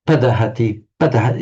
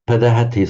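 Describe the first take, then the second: First: Padahati stressed on its first syllable, pa; wrong stress, four back. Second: Padahati with pa unstressed, stress on da; right stress, after prefix. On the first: Teacher showing what sounds wrong, padahati stressed on opening pa. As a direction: put the weight on the pa of padahati. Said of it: "completely wrong". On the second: Teacher showing what sounds right, padahati stressed on da. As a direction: keep pa light and lean on da in padahati. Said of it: "sounds right". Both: Shown as a demonstration.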